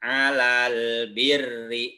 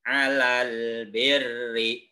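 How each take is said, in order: The two takes are said the same way.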